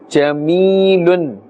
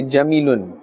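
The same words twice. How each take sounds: First: "Jamilun" with the ya stretched one alif count, said slowly; correct jamilun. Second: "jamilun" with a short unstretched ya, the mistake; wrong jamilun. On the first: Teacher shows students the correct stretched jamilun slowly. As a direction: pull the ya in "Jamilun" long, jami-i-lun. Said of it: "We must pull a little bit because this is now a ya madda". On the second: Teacher shows students the wrong short jamilun. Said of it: "We cannot say jamilun". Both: Shown as a demonstration.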